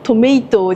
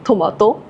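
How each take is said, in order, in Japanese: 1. 真ん中の母音は英語風の'ay'の音です。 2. 真ん中の母音は普通の日本語の'a'の音です。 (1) "トメイトじゃなくて" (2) "トマトっていう方がもっと日本語っぽくなる"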